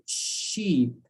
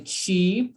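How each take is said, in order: First: "sheep" with a long sh and no t; correct initial sh. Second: "cheap" with a t before the sh; wrong initial sound. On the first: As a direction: draw out the sh that starts "sheep". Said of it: "But here we say sheep". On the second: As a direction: show the ch that starts "cheap". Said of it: "do not use the T". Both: Shown as a demonstration.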